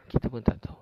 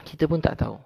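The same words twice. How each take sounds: First: Said in the usual way. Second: Raised high on the first saying, pun falling; "Kita pun tak tahu" lifted high with a falling pun; emphatic. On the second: Real, not acted. Ustaz stressing to the congregation that nobody knows, raised high.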